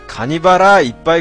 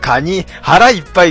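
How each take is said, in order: First: Kani and bara are joined as one word. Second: Kani is set apart before hara ippai. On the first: It sounds like a part of the crab called kanibara. The speaker calls it wrong. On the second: Crab will be eaten until the stomach is full. The speaker calls it right.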